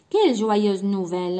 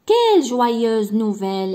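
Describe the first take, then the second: First: كيل جوايوز نوفيل exclaimed louder, stressing كيل; exclamation. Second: كيل جوايوز نوفيل exclaimed loud and slow, punching كيل; exclamation. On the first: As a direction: say it again as an exclamation. (تعجب على كيل) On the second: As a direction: cry it out with joy, hitting كيل. (نبرة تعجب قوية على كيل) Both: Shown as a demonstration. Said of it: "بوان ديكسكلاماسيون".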